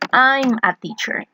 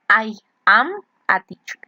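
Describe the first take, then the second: First: I am is joined into one syllable. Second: I and am are said as separate words. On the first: "when you use contractions, ... to sound more natural" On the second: "instead of"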